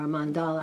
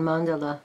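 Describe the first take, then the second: First: "mandala" with the middle syllable stressed, man-DAH-luh; stress on second syllable. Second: "mandala" stressed on the first syllable, MAN-duh-luh. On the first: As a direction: say "mandala" with a long open AH in the middle. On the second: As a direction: say "mandala" with a short, unstressed middle vowel. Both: Shown as a demonstration. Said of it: "however people pronounce it".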